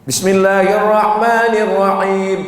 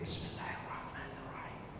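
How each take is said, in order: First: It is recited aloud in full voice. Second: It is recited quietly under the breath.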